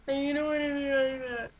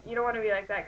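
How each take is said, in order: First: High, smeared wailing; overdone fake crying. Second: Said in the usual way. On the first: Shown as a demonstration. Acting coach showing a bad version, overdone unintelligible crying. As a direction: blubber it until the words are barely understandable. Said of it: "where you can't understand what you're saying". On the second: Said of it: "that just sounds, like, really, really dumb".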